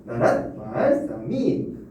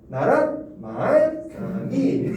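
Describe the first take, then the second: First: 나란 말싸미 read very slowly, each syllable stretched, pitch at normal height; retry 나란 말싸미 slowly with gentle tone steps; second tonal try. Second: 나란 말싸미 sung out very slowly in rising and falling pitch steps; tonal reading. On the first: Teacher trying the tonal reading again, slow and careful. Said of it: "이렇게 하면 되려나?". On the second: Teacher demonstrating Middle Korean tones to students, slow and tonal. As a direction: chant 나란 말싸미 with medieval pitch tones, high and drawn out. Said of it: "어떻게 하면 될까?". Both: Shown as a demonstration.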